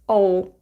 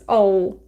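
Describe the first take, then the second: First: It is said as one contracted syllable. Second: It is said as one contracted syllable.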